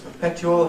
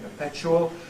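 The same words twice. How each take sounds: First: The t is followed by a separate y sound. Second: The t and y merge into a ch sound. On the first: This is the older pronunciation. "Jones's perpetual" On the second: This is the present-day pronunciation. "present-day perpetual"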